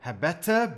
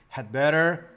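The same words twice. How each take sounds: First: It is said in a British accent. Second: It is said in an American accent. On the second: "American pronunciation"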